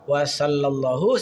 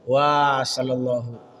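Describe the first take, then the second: First: The w vowel is short and l is doubled. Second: The w vowel is long and l is single. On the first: The speaker calls it right. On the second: The speaker calls it wrong.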